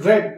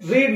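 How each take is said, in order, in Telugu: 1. అచ్చు హ్రస్వంగా ఉంది, 'red' లాగా. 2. అచ్చు దీర్ఘంగా ఉంది, 'reed' లాగా. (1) "రెడ్ and రెడ్ verb number two and three" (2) "రీడ్ verb number one అయితే"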